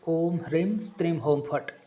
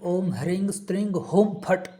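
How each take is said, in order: First: The syllables hreem and streem end in m. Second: The syllables hreem and streem end in ng. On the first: "मैं अभी मकार से बोल रहा हूँ" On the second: "ये भी बोलेगा तो भी चलेगा"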